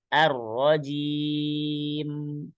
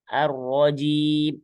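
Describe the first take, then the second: First: The final m flows on slightly before ending. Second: The final m is cut off hard, without flow. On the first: The speaker calls it right. "harus ada aliran sedikit" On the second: The speaker calls it wrong. "syiddah terlalu kuat nggak ada aliran sedikit ... ini salah juga"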